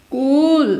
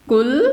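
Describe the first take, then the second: First: कूल with a long, held ū; long vowel. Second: कुल with a short u; short vowel. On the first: Teacher contrasts two words with different meanings, drawn-out long-vowel कूल. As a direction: draw out the ऊ in कूल. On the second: Teacher contrasts two words with different meanings, short-vowel कुल. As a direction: keep the उ in कुल brief. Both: Shown as a demonstration. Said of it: "दोनों अलग अलग meaning दे रहे हैं".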